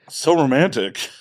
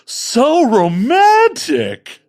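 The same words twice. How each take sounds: First: It is said with only faint sarcasm. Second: It is said with strong, obvious sarcasm. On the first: The speaker calls it wrong. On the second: The speaker calls it right.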